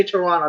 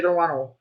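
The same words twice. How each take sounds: First: Toronto as "Toronna", ending in "uh"; local pronunciation. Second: Toronto ending in a clear "oh"; non-local pronunciation. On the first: Repeating how they say it, Toronto as "Toronna". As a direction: drop the second T in Toronto, end on "nuh". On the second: Showing what they don't say, Toronto ending in "oh". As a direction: say Toronto as "tuh-RON-oh". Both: Shown as a demonstration. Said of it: "They don't say Toronto".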